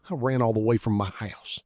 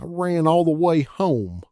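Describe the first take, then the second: First: Said in the usual way. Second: High, louder, slow wavering crooner falsetto; hammed-up falsetto mockery. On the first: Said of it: "Let me get my breath". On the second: A narrator's reading. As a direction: warble it like a mocking doo-wop singer. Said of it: "dreadful little Anthony falsetto".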